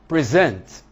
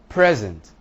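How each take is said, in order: First: The stress is on the second syllable. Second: The stress is on the first syllable. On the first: It is a verb. "a verb" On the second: It is a noun. "a noun"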